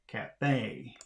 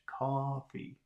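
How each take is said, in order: First: The stress is on the last syllable. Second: The stress is on the first syllable. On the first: "The stress in cafe falls on the last syllable" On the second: "the word coffee is stressed on the first syllable"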